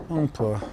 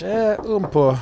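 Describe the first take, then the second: First: Said in the usual way. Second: Mock French lilt, much higher; playful French accent for a little. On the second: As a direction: answer in a put-on French accent. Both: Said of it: "Do you speak French?".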